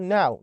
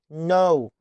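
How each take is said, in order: First: "ناو" rhyming with cow; wrong vowel. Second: "نو" rhyming with go; correct long O. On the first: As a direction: mispronounce know as "ناو". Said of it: "اوعى تغلط وتقول ناو". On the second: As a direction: say know as "نو", K silent. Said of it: "إنما كي إن هي إن نو". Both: Shown as a demonstration.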